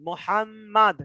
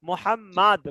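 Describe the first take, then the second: First: The word ends abruptly on the final consonant. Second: The word ends abruptly on the final consonant.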